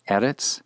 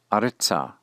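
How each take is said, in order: First: "Eretz" stressed on E, rising; first-syllable accent. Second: "aretza" stressed on a, falling; retained first-syllable accent. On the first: Teacher repeats the plain word Eretz, accented on its first syllable. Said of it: "accent on the first syllable". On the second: Teacher repeats the hey locative aretza, keeping first-syllable accent. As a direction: hit the first syllable of "aretza", leaving -tza unstressed. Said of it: "retains that first syllable accent". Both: Shown as a demonstration.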